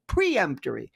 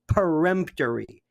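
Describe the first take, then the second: First: The word begins with a 'pre' sound. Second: The word begins with a 'per' sound. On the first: The speaker calls it wrong. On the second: The speaker calls it right.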